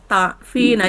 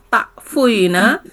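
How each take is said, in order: First: The f goes straight into the i. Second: A u vowel is said after the f. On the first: This form is easy to say. The speaker calls it right. "Ringan kan?" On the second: This form is hard to say. The speaker calls it wrong. "Kan susah takfuina"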